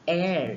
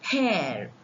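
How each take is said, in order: First: The word starts with a vowel sound. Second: The word starts with an H sound. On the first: The speaker calls it right. "It is air here" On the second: The speaker calls it wrong. "we don't pronounce them as"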